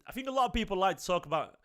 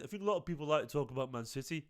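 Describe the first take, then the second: First: Said in the usual way. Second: Put-on weak Brummie accent, a bit quicker and softer; mock Brummie accent. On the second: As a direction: imitate Jack's Brummie accent, half-hearted. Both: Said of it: "uh, to do his accent".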